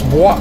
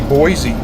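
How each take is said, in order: First: The name is said as one French-style syllable. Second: The name is said as two English syllables. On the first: "if it's French, you would pronounce it Bois" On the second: "most people say Boise"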